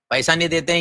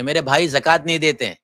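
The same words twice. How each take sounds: First: پیسہ marked in contrast, ending held on ہیں; پیسہ contrasted with زکوٰۃ; stress on money. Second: زکوٰۃ leaned on, falling; زکوٰۃ set against پیسہ; stress on zakat. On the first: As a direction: set پیسہ against زکوٰۃ. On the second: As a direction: press زکوٰۃ against money. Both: Shown as a demonstration. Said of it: "زکوٰۃ اور پیسے میں فرق ہوتا ہے".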